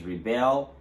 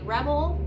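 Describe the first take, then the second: First: ReBEL, BEL punched high; stress on second syllable. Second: REBel, short e, strong first syllable; stress on first syllable. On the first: Teacher showing the verb's pronunciation, stress on BEL in rebel. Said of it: "the stress is on the second syllable". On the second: Teacher introducing the noun, stress on REB in rebel. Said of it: "the stress will falls on the first syllable". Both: Shown as a demonstration.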